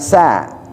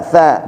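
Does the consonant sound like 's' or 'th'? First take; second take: s; th. First: The consonant is an s sound. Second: The consonant is a th sound. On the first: The speaker calls it wrong. "bukan sa" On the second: The speaker calls it right. "tha tha"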